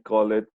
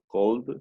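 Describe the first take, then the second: First: The ending is an extra "ed" syllable. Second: The ending is a short "d" sound. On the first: The speaker calls it wrong. "we never say call it" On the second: The speaker calls it right. "no, called"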